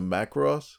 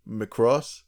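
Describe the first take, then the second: First: "Macross" said as MACK-ross; "Macross" with an open short a up front; full first vowel. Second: "Macross" said as muh-CROSS, questioning; unstressed first syllable. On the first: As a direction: say "Macross" with a clear "mack" at the start. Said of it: "could this be a reference to Macross". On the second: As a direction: say "Macross" like "McCross", stress on the end. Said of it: "somebody named Macross". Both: Shown as a demonstration.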